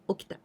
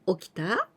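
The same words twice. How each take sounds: First: The voice falls at the end, as a statement. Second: The voice rises at the end, as a question.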